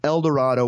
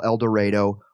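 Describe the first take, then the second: First: Said in the usual way. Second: El Dorado said el duh-RAY-doh; Kansas pronunciation. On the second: Shown as a demonstration. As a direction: give El Dorado a long A, as in ray. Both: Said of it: "we call El Dorado".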